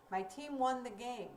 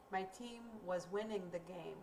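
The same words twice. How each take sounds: First: "My team won the game." said with a falling, closed tune; teacher shows a finished action with the voice; finished-sounding tune. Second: "My team was winning the game." said softer, trailing like more is coming; teacher shows an action still in progress; unfinished-sounding tune. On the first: Teacher contrasting tenses: closed, finished tune. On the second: Teacher contrasting tenses: open, unfinished tune. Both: Shown as a demonstration. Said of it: "Did you hear a difference in my intonation".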